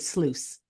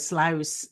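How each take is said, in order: First: It is said with a Canadian pronunciation. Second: It is said with a Dutch pronunciation. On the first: "here in Canada they say sluice" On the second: "is is Dutch"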